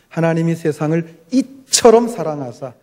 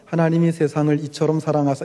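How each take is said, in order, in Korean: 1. 강하고 감정이 실린 감탄으로 말합니다. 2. 감탄하는 느낌 없이 담담하게 말합니다. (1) "이렇게 하셔야 그 의미가 탁 전달이 될 수가 있는 겁니다" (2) "이렇게 말하면 안 돼요"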